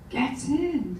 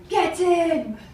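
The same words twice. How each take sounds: First: It is said with a hesitant, uncertain tone. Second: It is said with a confident, triumphant tone. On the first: She is not sure things will go her way. "And then she was a bit unsure" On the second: She is celebrating a small win. "Then she'd have another minor victory"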